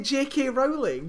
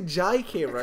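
First: The letter J is said rhyming with K. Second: The letter J is said rhyming with I. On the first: The speaker calls it right. "But then you say J.K. Rowling" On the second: The speaker calls it wrong. "You don't say J.K. Rowling"

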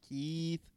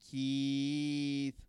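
First: The vowel sound is full and clear. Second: The vowel sound is stretched out longer. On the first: "Is that better?" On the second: "even a little longer"

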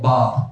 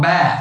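First: It is said in a British accent. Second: It is said in an American accent.

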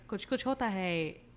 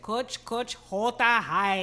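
First: It is said with a native Hindi accent. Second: It is said with an exaggerated American accent. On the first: The speaker calls it right. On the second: The speaker calls it wrong.

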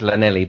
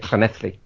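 First: The word starts with a plain L sound. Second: The word starts with a hissy 'cl' sound. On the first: It follows an English reading of the spelling. "It's phonetically it's Llanelli" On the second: It is how local people say it. "but they say it Llanelli"

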